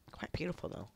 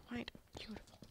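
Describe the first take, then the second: First: Said in the usual way. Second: Very soft, hushed murmur; breath-only aside; admiring whisper. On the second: Real, not acted. Whispered repeat admiring home.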